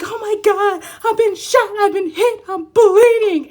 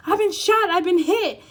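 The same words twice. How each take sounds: First: High, loud, laughing overacted panic; mock dramatic victim. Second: High, loud overacted panic, a touch calmer; a half-laughing repeat of the melodrama wound; mock dramatic victim. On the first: Mimicking the client, she hams up a high, loud wounded cry. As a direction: wail like a wounded hero in a melodrama. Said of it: "that's how you were interacting". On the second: Mocking the client's reaction, a high, loud hammed-up cry. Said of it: "it's just a goddamn apology".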